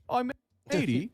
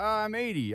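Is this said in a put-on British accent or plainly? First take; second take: British; Plain. First: It is said in a put-on British accent. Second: It is said in the speaker's ordinary accent.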